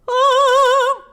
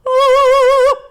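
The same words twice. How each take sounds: First: The vowel has a bright, forward resonance. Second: The vowel has a balanced, in-between resonance. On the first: "more brightness" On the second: "right in the middle"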